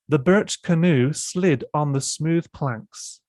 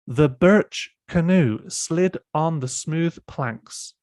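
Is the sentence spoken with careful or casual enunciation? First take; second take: casual; careful. First: The word birch is pronounced unclearly. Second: Every word is enunciated very clearly. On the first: The speaker calls it wrong. "I didn't pronounce the word birch um, clearly enough" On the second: The speaker calls it right. "you can see how clearly I have to enunciate"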